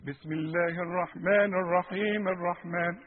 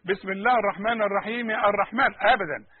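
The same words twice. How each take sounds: First: الرحمن chanted, joined, no hamza; correct reading. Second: الرحمن read with a stopped hamza start; wrong reading. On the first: Teacher chants the right way. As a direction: chant الرحمن smoothly linked to الرحيم. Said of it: "الميم مرققة". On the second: Teacher shows the mistake, louder. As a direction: break before الرحمن, a glottal stop on its first sound. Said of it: "ما أقولش". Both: Shown as a demonstration.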